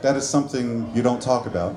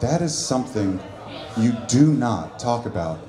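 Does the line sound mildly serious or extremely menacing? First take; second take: mildly serious; extremely menacing. First: It is said in a somewhat serious tone. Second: It is said in a very heavy, menacing tone. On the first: The speaker has killed a few people. "you've killed like one or two motherfuckers" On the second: The speaker has killed a great many people. "the way my dad said it"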